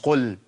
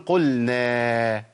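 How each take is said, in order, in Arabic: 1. يُقصَر حرف المدّ الأخير. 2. يُمَدّ حرف المدّ الأخير. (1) "مش قل" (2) "فأقول قلنا"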